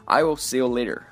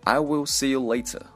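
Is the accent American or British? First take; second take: American; British. First: The t in later is a soft flap. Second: The t in later is crisp and released.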